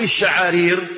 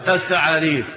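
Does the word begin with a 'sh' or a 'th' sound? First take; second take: sh; th. First: The word begins with a 'sh' sound. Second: The word begins with a 'th' sound. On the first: This is the original form of the word. The speaker calls it right. "فاللفظ الأصيل كما يقول ابن حجر الشعارير بالشين" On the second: A speaker who has lost teeth says it this way. The speaker calls it wrong. "حماد الآن بيقولها ايه بالثاء"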